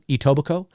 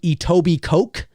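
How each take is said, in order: First: The final K sound is silent. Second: The final K sound is pronounced. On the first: The speaker calls it right. "The the uh the K in Coke is silent" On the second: The speaker calls it wrong. "It it's spelt like Etobicoke"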